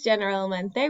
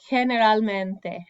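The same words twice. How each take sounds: First: The first letter has an English-style g sound. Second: The first letter has a throaty h sound. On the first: The speaker calls it wrong. "we don't say this generalmente" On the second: The speaker calls it right. "we say generalmente ... that G in this case makes a H sound"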